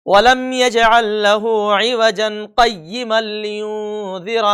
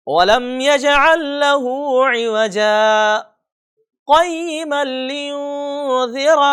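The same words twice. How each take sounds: First: No saktah after عِوَجًا; wrong reading, one breath through; wrong reading, no pause. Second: Slow chant with a held saktah after عِوَجًا; brief breathless stop after عِوَجًا; pause without breath. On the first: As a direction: run عِوَجًا straight into قَيِّمًا without stopping. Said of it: "یہ بالکل غلط ہے". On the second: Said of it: "پڑھنے کا طریقہ کیا ہے؟". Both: Shown as a demonstration.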